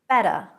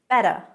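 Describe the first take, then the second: First: The middle T sounds soft, like a D. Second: The same.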